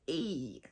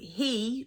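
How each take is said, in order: First: The word begins without any H sound. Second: The word begins with an audible H sound.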